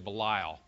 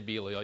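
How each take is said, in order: First: It is said in a Southern US accent. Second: It is said in a standard, non-Southern accent.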